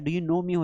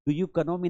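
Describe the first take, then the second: First: 'Know' starts with an n sound. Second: 'Know' starts with a k sound. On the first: The speaker calls it right. "Do you नो मी होता है" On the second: The speaker calls it wrong. "Do you कनो मी नहीं होता है"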